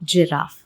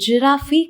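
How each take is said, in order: First: The word ends with a plain 'f' consonant. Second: The word ends with an added vowel sound. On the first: The speaker calls it right. "The right pronunciation is ஜிராஃப்" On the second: The speaker calls it wrong. "அது ஜிராஃபி கிடையாது"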